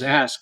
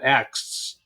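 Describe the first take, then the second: First: The s sound comes before the k. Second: The k sound comes before the s. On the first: The speaker calls it right. "pronounce the word ask as ask" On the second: The speaker calls it wrong. "and not asks"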